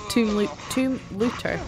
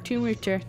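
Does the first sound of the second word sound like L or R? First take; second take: L; R. First: The second word starts with a clear L sound. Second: The second word starts with an R sound. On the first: The speaker calls it right. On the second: The speaker calls it wrong.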